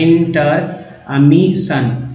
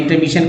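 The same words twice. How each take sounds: First: intermission very slowly, broken into in-ter-mi-shan; teacher slowly sounding out intermission; syllable by syllable. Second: Said in the usual way. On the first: Shown as a demonstration. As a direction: sound out intermission part by part, drawn out. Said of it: "पढ़ा जा सकता है". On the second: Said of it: "मिस पढ़ना था".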